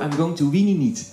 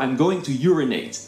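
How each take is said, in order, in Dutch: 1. Het laatste woord komt onduidelijk eruit, zoals weenie niet. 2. Het laatste woord wordt op de standaard manier uitgesproken. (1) "die kon het niet uitspreken" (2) "dan moest ze altijd zeggen"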